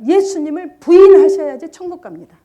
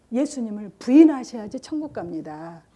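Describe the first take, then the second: First: Much louder, higher, each word hammered out; emphatic quote. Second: Gentle coaxing. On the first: Teller hammering the deceivers' exact words, much louder and higher. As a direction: drive the false words home. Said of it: "딱 그 말이에요". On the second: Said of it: "그 착한 얼굴로". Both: Retold or imitated.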